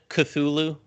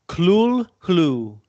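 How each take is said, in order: First: It is said without an extra L sound. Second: It is said with an extra L sound. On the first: "does everyone here pronounce it Cthulhu?" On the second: "there's a like an L in there that you wouldn't think is there"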